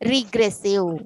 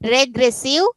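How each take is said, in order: First: The first vowel sounds like 'ee'. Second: The first vowel sounds like 'eh'. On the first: "ರೀ ಈ sound ಬರ್ತಾ ಇದೆಯಲ್ವಾ?" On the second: "ಇ ಅನ್ಬೇಕಾ ಎ ಅನ್ಬೇಕಾ"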